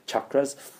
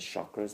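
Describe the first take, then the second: First: The word begins with a hard ch sound. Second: The word begins with a soft sh sound. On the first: The speaker calls it right. "It's cha, that's why it's ch, not sh" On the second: The speaker calls it wrong. "Westerners mispronounce as chakras, that's the wrong pronunciation"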